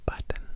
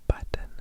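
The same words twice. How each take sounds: No difference in how they are said.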